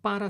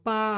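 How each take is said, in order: First: The word is said in full, both syllables. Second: The word is clipped to a single syllable. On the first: "no decimos para" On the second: "sino pa, nos comemos las palabras"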